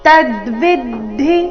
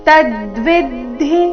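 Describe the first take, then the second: Both takes have the same delivery.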